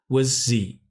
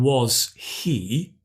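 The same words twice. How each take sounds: First: 'Was' is reduced to a weak vowel. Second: 'Was' is said with its full vowel. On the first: "we contract the was to were" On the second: "instead of saying was he"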